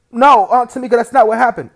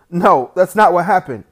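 First: Much louder, higher pleading denial; a boy pleading loudly to his aunt that it's a lie; desperate loud protest. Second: Loud, higher denial with NOT punched; a boy loudly denying his brother's story to the aunt; loud protest. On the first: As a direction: yell the denial, begging to be believed. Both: Acted.

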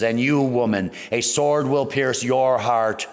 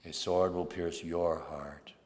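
First: Booming prophecy. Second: Softer, slow, solemn recollection; hushed prophecy. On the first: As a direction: declare it like a prophet over the crowd. Simeon prophesies to Mary. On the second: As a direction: speak it softly, as a fulfilled omen. Prophecy recalled quietly at the end. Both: Retold or imitated.

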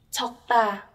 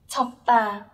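Both takes have the same delivery.

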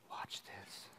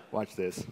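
First: "Watch this." as a breathy secret whisper. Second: Said in the usual way. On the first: Shown as a demonstration.

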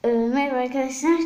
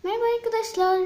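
First: Said in the usual way. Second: Greeting pitched way up; cheerful channel intro voice; bright high intro greeting. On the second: Shown as a demonstration. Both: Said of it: "Tekrar giriş yapıyorum".

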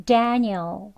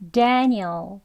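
Both takes have the same delivery.

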